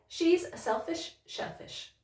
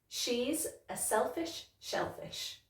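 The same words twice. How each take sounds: First: It is said a bit faster. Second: It is said at a normal pace.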